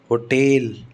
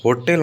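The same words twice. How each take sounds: First: hotel as "ho-TEL", long second syllable; stress on second syllable. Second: hotel with हो stressed and short second syllable; stress on first syllable. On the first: Teacher giving the exception, hotel stressed on टेल. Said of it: "टेल पर stress आता है". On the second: Teacher showing what should be, hotel stressed on हो. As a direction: lean on हो in hotel. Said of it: "hotel होना चाहिए". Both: Shown as a demonstration.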